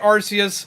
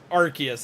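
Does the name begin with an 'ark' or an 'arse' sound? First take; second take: arse; ark. First: The name begins with an 'arse' sound. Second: The name begins with an 'ark' sound. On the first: This is the habitual personal way the name is said. The speaker calls it wrong. "I have been calling it Arceus since the game came out" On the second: This is the official way the name is said. The speaker calls it right. "It is actually pronounced Arceus"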